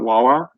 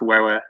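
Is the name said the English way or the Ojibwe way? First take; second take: English; Ojibwe. First: It is said with an English pronunciation. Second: It is said with an Ojibwe pronunciation. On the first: The speaker calls it wrong. "how the pronunciations get messed up" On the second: The speaker calls it right. "should probably be pronounced Wawa, actually"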